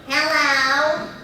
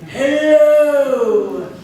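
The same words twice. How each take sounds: First: The voice is nasal and throaty, snide. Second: The voice is deep, from the diaphragm.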